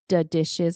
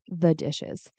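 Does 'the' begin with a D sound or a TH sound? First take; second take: D sound; TH sound. First: 'The' begins with a hard D sound. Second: 'The' begins with a soft TH sound. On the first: The speaker calls it wrong. "you might say the D ins- or T instead of the T H" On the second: The speaker calls it right. "instead of the dishes"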